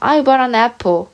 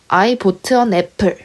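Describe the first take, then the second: First: 'Bought' is said with a natural English vowel. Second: 'Bought' is said like the Korean word boteu. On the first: The reader is now confident in English pronunciation. The speaker calls it right. "지금 같았으면 I bought an apple 이렇게 발음을 했을 텐데" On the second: The reader was too shy to sound foreign. The speaker calls it wrong. "저는 이 단어를 보트라고 읽은 거죠"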